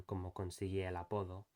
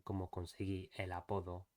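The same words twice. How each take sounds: First: A catch between "conseguí" and "el"; glottal stop. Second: Vowels flowing together with no break; smooth linking. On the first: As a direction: break the air before "el". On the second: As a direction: run "conseguí el" together smoothly. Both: Shown as a demonstration. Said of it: "rather than".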